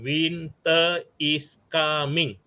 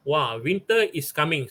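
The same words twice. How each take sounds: First: "Winter is coming" drawn out very slowly, word by word; slow dictation. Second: Said in the usual way. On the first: Shown as a demonstration. Teacher shows the poet writing the line, slow dictation. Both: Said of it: "So he write down".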